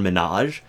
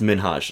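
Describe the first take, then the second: First: The H sound in the middle is left out. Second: The H sound is pronounced lightly. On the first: The speaker calls it wrong. "because people say, well" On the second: The speaker calls it right. "and it's Minhaj. Like, there's an H there"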